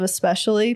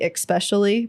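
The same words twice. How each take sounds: First: It is said the standard way, with no added sound. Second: It is said the Utah way, with an added sound.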